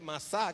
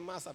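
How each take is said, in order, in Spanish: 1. El acento está en la última sílaba. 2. El acento está en la primera sílaba. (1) "que es como se pronuncia en hebreo" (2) "Acá en español pues la escriben masa"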